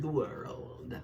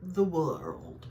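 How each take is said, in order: First: "the World" said softly, "World" in two clear syllables; a quiet fix, "World" spelled out as two syllables; careful pronunciation. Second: "The World" said oddly, with "World" clipped to one stretched sound; a botched "The World", the word "World" squeezed oddly; odd pronunciation. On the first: Shown as a demonstration. Correcting herself for viewers, "World" carefully said. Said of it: "Two syllables". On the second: Real, not acted. Reading the last tarot card, she says its name oddly. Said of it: "I said that weird".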